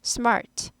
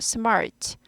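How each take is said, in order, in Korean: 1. 이 단어에는 말린 r 소리가 있어요. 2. 이 단어에는 말린 r 소리가 있어요.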